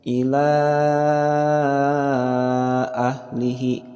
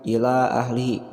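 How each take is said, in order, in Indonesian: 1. Vokal sebelum hamzah dibaca panjang. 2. Vokal sebelum hamzah dibaca pendek. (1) "empat sampai enam" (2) "jangan sampai ila ahlihi, bacanya pendek"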